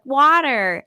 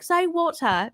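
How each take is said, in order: First: WATER with an American flapped T, loud and higher; American-accented child. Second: Higher-pitched British WATER, crisp T and no final R; British accent. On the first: Three-year-old answers her British mother, in an American accent. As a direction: imitate a little kid answering in an American accent. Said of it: "has an American accent". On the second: British mother corrects her American-sounding daughter, in a British accent. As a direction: imitate a British mum correcting her child. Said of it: "a woman said that she's British". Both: Retold or imitated.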